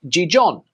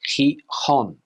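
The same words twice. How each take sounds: First: It is pronounced with English-style sounds. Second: It is pronounced with Spanish sounds. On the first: The speaker calls it wrong. "not pronounced Gijón" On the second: The speaker calls it right. "In Spanish, you would say"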